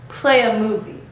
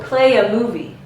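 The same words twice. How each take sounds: The two takes are said the same way.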